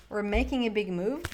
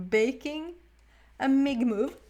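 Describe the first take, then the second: First: Said in the usual way. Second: Amused slip. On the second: Real, not acted.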